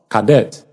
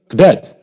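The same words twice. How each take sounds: First: The unstressed vowel is said as a full vowel. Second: The unstressed vowel is reduced to uh. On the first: The speaker calls it wrong. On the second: The speaker calls it right.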